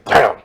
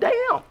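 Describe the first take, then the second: First: It sounds angry. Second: It sounds like a sudden realization.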